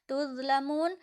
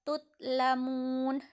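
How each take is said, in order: First: The middle consonant is a voiced z-like sound. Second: The middle consonant is a stopped t sound. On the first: The speaker calls it right. "zo di sini" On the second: The speaker calls it wrong. "tidak boleh dibaca tutlamun"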